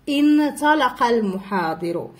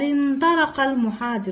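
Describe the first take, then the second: First: The first word begins with a glottal stop. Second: The first word has no glottal stop. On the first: "بدأت هذه الجمل بكلمات في أولها همزة تم النطق بها" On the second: "ما نطقناش هاد الهمزة هذه"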